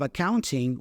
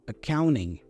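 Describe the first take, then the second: First: The T after the N is clearly pronounced. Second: The T after the N is dropped. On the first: "So instead of accounting" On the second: "that T goes away, so we pronounce the N instead"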